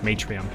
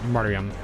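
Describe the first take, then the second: First: No R sound follows the first vowel. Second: An R sound follows the first vowel. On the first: "if the R is silent" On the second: "So I think martyr"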